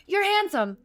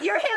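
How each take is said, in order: First: High-pitched dazed blurt; starstruck blurt. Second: High-pitched giddy blurt with a laugh; starstruck blurt. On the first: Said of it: "I'm like". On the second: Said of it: "while I'm like". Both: Retold or imitated.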